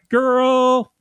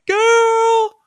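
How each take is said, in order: First: It is said in a plain, normal voice. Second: It is said in an exaggerated put-on voice.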